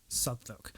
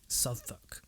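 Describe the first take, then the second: The two takes are said the same way.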